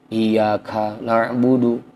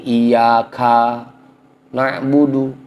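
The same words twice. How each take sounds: First: The ka syllable has a short vowel. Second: The ka syllable has a lengthened vowel. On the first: The speaker calls it right. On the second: The speaker calls it wrong.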